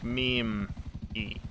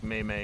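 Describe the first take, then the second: First: It sounds like 'meme' followed by 'ee'. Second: It sounds like 'may may'. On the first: The speaker calls it right. "I'm saying like meme E" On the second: The speaker calls it wrong. "I'm not pronouncing it like Mei Mei"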